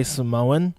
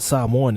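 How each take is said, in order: First: "Samoan" said suh-MOH-un, stress on the middle; Americanised pronunciation. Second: "Samoan" said SAH-mwan, first syllable stressed; proper pronunciation. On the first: Explaining to Americans, Americanised "Samoan" as suh-MOH-un. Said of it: "it's not how it's meant to s-, be said". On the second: Talking of New Zealanders, "Samoan" said properly as SAH-mwan. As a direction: say "Samoan" with open ah first, no long oh. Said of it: "People know what Samoan is". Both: Shown as a demonstration.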